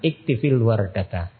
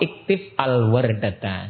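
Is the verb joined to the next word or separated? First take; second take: joined; separated. First: The verb ends in -i, linked into the next word. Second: The verb ends in a bare consonant, then a break. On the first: "untuk dibaca menyambung harus dihidupkan" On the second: "Kalau dipotong"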